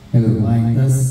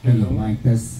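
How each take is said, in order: First: The voice has an added audio effect. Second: The voice sounds plain, with no added effect. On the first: "Ito effects niyan" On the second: "walang effect ko"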